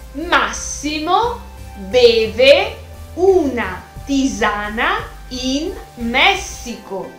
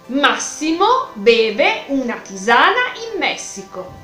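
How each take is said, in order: First: The sentence is spoken at a slower pace. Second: The sentence is spoken at a faster pace.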